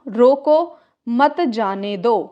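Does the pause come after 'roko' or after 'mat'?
after roko. There is a pause after the first word. Stop him; do not let him go. "जैसे कि रोको"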